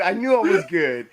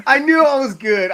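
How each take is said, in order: First: Said in the usual way. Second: High, loud laughing brag; laughing boast. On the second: Real, not acted. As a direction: crow it while laughing. Laughing self-praise.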